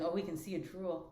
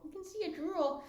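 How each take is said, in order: First: Said in the usual way. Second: Pitched way up, talking to the dog. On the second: Real, not acted. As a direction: coo it high like to a pet. Repeats it to the dog, high.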